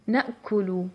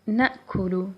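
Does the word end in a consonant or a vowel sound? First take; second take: vowel; vowel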